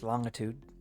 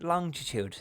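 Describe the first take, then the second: First: It is said in the speaker's plain accent. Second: It is said in a put-on accent.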